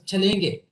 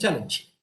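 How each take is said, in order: First: It is read as a Hindi word. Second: It is pronounced as the English word.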